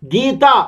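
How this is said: The word ends in an open 'ah' vowel. This is the usual form used elsewhere. "Gita becomes Gito"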